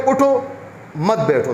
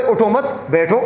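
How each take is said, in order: First: اٹھو on its own, a break, then مت بیٹھو together; pause after اٹھو. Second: اٹھو مت run together, a break, then بیٹھو alone; pause after مت. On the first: Teacher shows how one student reads it, pause after اٹھو. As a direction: read it as two commands, pausing straight after اٹھو. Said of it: "اس میں ایک student پڑھے". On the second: Teacher shows another student's reading, pause after مت. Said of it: "دوسرا student پڑھے". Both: Shown as a demonstration.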